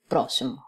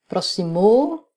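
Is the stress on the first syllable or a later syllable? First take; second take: first syllable; later syllable. First: The stress falls on the first syllable. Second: The stress falls on a later syllable. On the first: The speaker calls it right. "on dit ... avant dernière syllabe forte" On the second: The speaker calls it wrong. "On ne dit pas"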